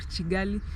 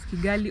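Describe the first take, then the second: First: It begins with a ch sound. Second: It begins with a plain k sound. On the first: "or Chigali" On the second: "they don't pronounce it as, as Kigali"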